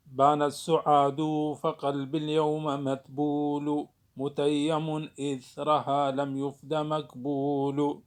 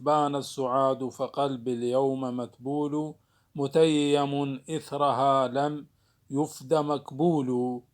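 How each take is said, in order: First: بان السعاد read as metrical syllables, slowly, with يفد مكبول dragged out; prosodic reading. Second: Slow measured verse reading; poem recitation. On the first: Teacher shows students the prosodic reading of the verse. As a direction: scan the verse sound by sound, slowly. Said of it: "يقرأ أيضًا القراءة العروضية". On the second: Teacher reciting an example verse to students. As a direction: chant the line of poetry slowly. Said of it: "مثل ما موجود في هذا البيت". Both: Shown as a demonstration.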